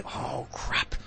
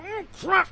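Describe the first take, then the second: First: Hushed unvoiced "Oh, crap."; low. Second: "Oh, crap." jumps up high; higher. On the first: Mimicking people who say it low, whispered. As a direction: breathe it out softly, barely voiced. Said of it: "Low, or they go". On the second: Retold or imitated. Mimicking people who say it differently, high yelp. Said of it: "or they go".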